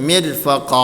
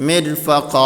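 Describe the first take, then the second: No difference in how they are said.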